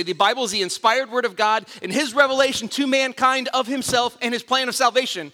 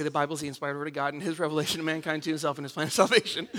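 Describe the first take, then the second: First: Proud, crisp recitation; eager kid answer. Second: Fast, much softer mumbled recitation; bored rote answer. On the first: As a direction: rattle it off like the star quiz kid. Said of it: "And I would say". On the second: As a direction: rush through it half asleep. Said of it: "And I'd say". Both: Retold or imitated.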